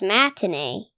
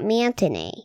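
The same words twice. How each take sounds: First: The first syllable is 'mat', with no 'n'. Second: The first syllable is 'mant', with an added 'n'. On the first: The speaker calls it right. "it's Matinee" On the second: The speaker calls it wrong. "not Matinee. / You throw the mant in there"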